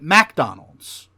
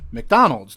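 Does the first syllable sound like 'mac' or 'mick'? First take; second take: mac; mick. First: The first syllable sounds like 'mac'. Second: The first syllable sounds like 'mick'. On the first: "They pronounce it McDonald's" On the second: "they don't pronounce McDonald's McDonald's"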